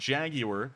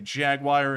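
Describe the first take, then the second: First: It is said the British way. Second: It is said the American way. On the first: "how British people say" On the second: "Americans say"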